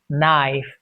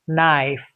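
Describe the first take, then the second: No difference in how they are said.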